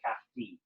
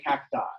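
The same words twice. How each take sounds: First: It ends with an 'ee' sound, Roman style. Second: It ends with an 'eye' sound, American style.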